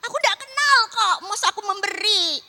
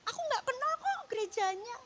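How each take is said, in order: First: Higher and louder, insisting she owes nothing; loud protest. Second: Higher, retold protest to God. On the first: Retold or imitated. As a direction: argue back hard at God. (protes keras dengan suara tinggi) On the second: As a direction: push back at God with a raised voice. (protes dengan suara lebih tinggi) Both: Self arguing with God, retold.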